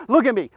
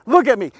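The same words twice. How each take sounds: The two takes are said the same way.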